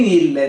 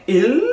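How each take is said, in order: First: Ile with an extra vowel after the L, like Portuguese; wrong Portuguese ile. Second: Il as one syllable, no vowel after the L; correct French il. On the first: Teacher imitating the students' error, ile with a vowel added. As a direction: tack a vowel onto il, the learner's mistake. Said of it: "em português tem tendência a falar ile". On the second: Teacher contrasting with the Portuguese habit, a clipped Il. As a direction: end Il cleanly on the tongue-tip L. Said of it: "o L coladinho no céu da boca". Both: Shown as a demonstration.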